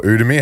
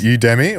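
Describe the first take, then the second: First: "Udemy" as OO-demy; first syllable of "Udemy" without the y glide; alternative pronunciation. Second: "Udemy" as YOU-demy; first syllable of "Udemy" like "you"; alternative pronunciation. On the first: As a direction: say "Udemy" starting with an "oo" sound. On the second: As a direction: say "Udemy" starting with a "you" sound. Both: Shown as a demonstration. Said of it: "however you wanna pronounce it".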